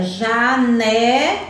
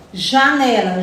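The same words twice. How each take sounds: First: Janela stretched slowly with a rising end; slow, drawn-out janela. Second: Said in the usual way. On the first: Shown as a demonstration. Teacher stretches janela so children find the syllable. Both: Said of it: "ele fica aqui na segunda sílaba".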